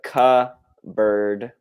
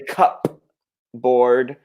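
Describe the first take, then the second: First: The P is silent, sounding like one word. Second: The P is pronounced, like two separate words. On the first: The speaker calls it right. "The P is silent" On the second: The speaker calls it wrong. "We don't say cup board"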